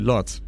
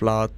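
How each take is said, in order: First: The vowel is said with rounded lips. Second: The vowel is open with unrounded lips. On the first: "in the British English, they use round vowels" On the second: "the O becomes like an R sound, similarly to the R sound in the word father"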